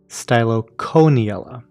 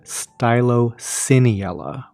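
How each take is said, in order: First: The middle 'coe' is not said like 'see'. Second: The middle 'coe' is said like 'see'. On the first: "but I've also heard it pronounced" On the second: "where the C O E is pronounced S E E as in like coelacanth"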